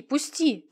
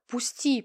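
First: Protesting cry. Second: Pleading. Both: A narrator's reading. Dragged to police, resisting.

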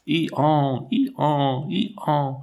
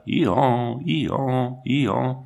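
First: Higher, bellowing donkey "Ihan" at full force; powerful donkey bray. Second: A touch of a plaintive donkey "Ihan", lightly voiced; mild tearful hee-haw; weeping donkey bray. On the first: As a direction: bray it out like a donkey with all its might. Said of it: "une puissante voix d'âne qui criait". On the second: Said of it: "avait l'air de pleurer et aussi d'appeler au secours". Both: A narrator's reading.

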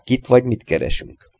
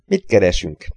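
First: Said in the usual way. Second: Mildly feigned innocent question. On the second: A narrator's reading. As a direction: ask it lightly, as if knowing nothing. (ártatlanul kérdezve) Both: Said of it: "kérdezte ártatlanul Gregory".

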